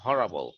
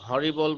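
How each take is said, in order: First: The middle vowel is a weak 'uh' sound. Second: The middle vowel is a clear 'ee' sound. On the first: This is the actual pronunciation. The speaker calls it right. "উচ্চারণটা আসলে হরাবল" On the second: This is how people commonly say it. The speaker calls it wrong. "হরিবল বলি আমরা"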